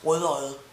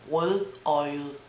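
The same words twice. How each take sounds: First: The word is said fast and reduced. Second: The word is said slowly and carefully.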